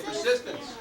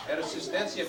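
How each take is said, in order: First: Said in the usual way. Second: Persistencia said the Spanish way; Spanish pronunciation. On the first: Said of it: "In Mexico, they say". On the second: Shown as a demonstration. Teaching students the Mexican word, Persistencia in Spanish pronunciation. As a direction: Persistencia with Spanish vowels and an -ia ending. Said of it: "In Mexico, they say persistencia".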